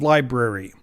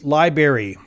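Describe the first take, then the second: First: A careful, standard pronunciation of the word. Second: A lazy, sloppy pronunciation of the word. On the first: The speaker calls it right. "instead of" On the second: The speaker calls it wrong. "lazy, bad word substitutes"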